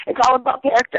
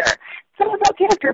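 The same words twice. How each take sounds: First: Said in the usual way. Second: "It's all about character." pitched much higher, rising on "character"; emphatic repeat. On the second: Real, not acted. A wrestler making his point to his friends, emphatic repeat. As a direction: say it again with "character" lifted high.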